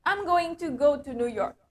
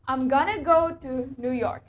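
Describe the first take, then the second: First: Going to is said fully as separate words. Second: Going to is blended into a shortened gonna. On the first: "that sentence is really long" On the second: "Kita bisa singkat itu menjadi gonna"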